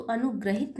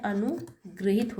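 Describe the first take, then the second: First: Said in the usual way. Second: अनुगृहित said slowly with "ri", गृ clearly sounded; correct spelling said slowly. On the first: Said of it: "अनुग्रहित नहीं होता है". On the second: Shown as a demonstration. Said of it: "यहाँ पे री की मात्रा लगती है". (अनुगृहित को धीरे से, गृ पर ज़ोर देकर बोलें)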